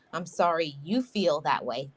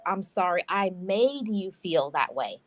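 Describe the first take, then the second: First: You leaned on, rising; the wrong apology with you stressed. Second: Made leaned on, falling; the proper apology with made stressed. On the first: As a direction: put the weight on you. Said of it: "that's not an apology". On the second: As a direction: hit the word made as the key fix. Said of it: "An apology is". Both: Shown as a demonstration.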